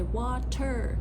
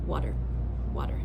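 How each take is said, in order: First: Water with a crisp, fully released T; clear T. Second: Water with a quick flapped D-like T, wadder. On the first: Teacher shouting to be understood, clear T in water. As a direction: say water with a sharp true T. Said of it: "even if I'm shouting". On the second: Teacher showing normal speech, flapped T in water. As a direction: tap the T in water lightly like a fast D. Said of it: "But in normal speech". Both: Shown as a demonstration.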